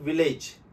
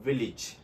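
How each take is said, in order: First: It is said the common local way. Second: It is said the standard English way. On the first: The speaker calls it wrong. "It is not" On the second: The speaker calls it right. "It is"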